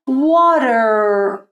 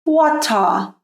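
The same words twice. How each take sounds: First: "Water" with a quick D and long final R; American "Water", like "wah-der"; American flapped T. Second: "water" with a crisp T and no final R; British "water", like "wa-tah"; British clear T. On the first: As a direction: flap the T in "Water", hold the R. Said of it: "no inglês americano". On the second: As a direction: sound the T in "water", end on an open vowel. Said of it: "no inglês britânico". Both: Shown as a demonstration.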